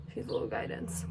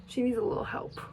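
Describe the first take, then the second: First: Soft voiceless whisper of the same thought. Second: Said in the usual way. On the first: Real, not acted. About the back of her hair, whispered to camera. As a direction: drop to a hush for the second line.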